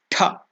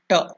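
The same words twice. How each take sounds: First: The t is said with a strong breath. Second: The t is said with little breath. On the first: "If it is Mahaprana, that is more energy" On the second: "Little energy is used, little breath. So that is Ta"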